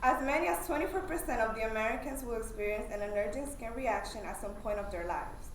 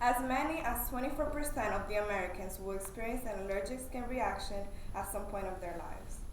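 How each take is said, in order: First: It is said loudly and fairly fast. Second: It is said loudly and more slowly.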